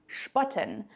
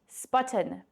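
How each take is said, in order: First: The word is pronounced with a German vowel. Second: The word is pronounced with an English vowel. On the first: It means to make fun of somebody. "if you pronounce this word the German way" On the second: It means to help someone with weights. "you'll need to pronounce it the English way"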